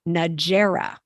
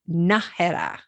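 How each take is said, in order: First: It is said with an English-style pronunciation. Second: It is said with a Spanish-style pronunciation. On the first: The speaker calls it wrong. "often pronounced in English Najera, which is not correct" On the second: The speaker calls it right. "It's Nájera"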